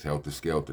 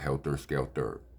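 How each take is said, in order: First: Both words end with an open 'ah' sound. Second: Both words end with an 'er' sound. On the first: The speaker calls it right. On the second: The speaker calls it wrong.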